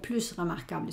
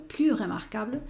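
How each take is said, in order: First: The final S of plus is sounded. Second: The final S of plus is silent. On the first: The speaker calls it wrong. "no digo plus remarquable" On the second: The speaker calls it right. "sino plus remarquable"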